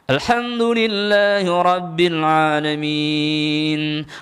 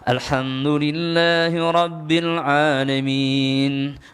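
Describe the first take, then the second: First: It is recited with more pressure and force. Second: It is recited in an ordinary, unpressed voice. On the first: It is meant to confront and strike the devil. "untuk ruqyah kita tekan sedikit" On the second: It is an ordinary prayer reading. "Doa biasa, bacaan biasa"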